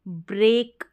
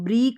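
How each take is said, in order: First: The vowel sounds like ay. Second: The vowel sounds like a long ee. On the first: The speaker calls it right. "ब्रेक बोलेंगे" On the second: The speaker calls it wrong. "इसको ब्रीक नहीं बोलेंगे"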